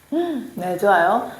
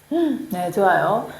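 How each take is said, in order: The two takes are said the same way.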